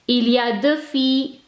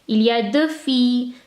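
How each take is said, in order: The two takes are said the same way.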